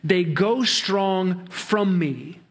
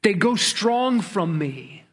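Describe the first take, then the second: First: Very slow, each word laid out evenly; slow literal reading. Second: "strong" stressed with a falling tune; emphatic repeat. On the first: Preacher giving the literal Hebrew, slow and deliberate. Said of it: "the Hebrew text reads". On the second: Preacher driving home the piled-up sins, stressing "strong". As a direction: lean hard on "strong" and let it drop. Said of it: "plurals, compounded". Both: Shown as a demonstration.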